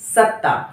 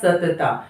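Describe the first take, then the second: First: The t is held as one doubled consonant. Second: A short vowel separates the two t sounds. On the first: The speaker calls it right. "आपको क्या लिखना था" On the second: The speaker calls it wrong. "आपने क्या लिखा"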